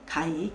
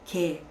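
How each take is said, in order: First: The vowel glides from a to i. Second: The vowel is a single steady sound. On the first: This is how the word was read when the script was created. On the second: This is how the word is read today.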